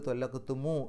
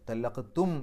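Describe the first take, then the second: First: The word ends with a mu syllable. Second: The word ends on a bare m sound. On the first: "ത്വല്ലഖ്തുമു എന്നുള്ള രൂപത്തിലേക്ക് മാറ്റി" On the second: "ത്വല്ലഖ്തും എന്നുള്ളത്"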